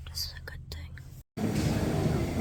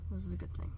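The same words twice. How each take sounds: First: Slow breathy whisper. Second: Said in the usual way. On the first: Shown as a demonstration. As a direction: whisper it slowly. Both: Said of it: "repeated as whisper".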